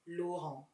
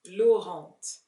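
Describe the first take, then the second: First: No T sound is heard at the end. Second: A T sound is heard at the end. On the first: The speaker calls it right. "The T is silent. You don't pronounce it" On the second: The speaker calls it wrong. "a lot of celebrities and influencers pronounce"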